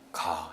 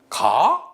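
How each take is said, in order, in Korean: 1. 평서형처럼 밋밋하게 말합니다. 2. 의문하는 억양으로 말합니다. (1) "이렇게 읽으면은 이거는 평서형 문장입니다" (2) "이렇게 물어보면은 이거는 의문이죠"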